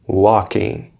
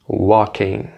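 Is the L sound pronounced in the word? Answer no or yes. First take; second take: no; no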